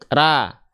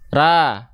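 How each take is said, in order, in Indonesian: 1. Suku kata yang tipis dan ringan dengan vokal a yang terbuka. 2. Suku kata yang tipis dan ringan dengan vokal a yang terbuka.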